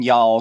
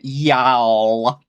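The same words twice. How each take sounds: First: It is said plainly, without a drawl. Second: It is said with a Southern drawl.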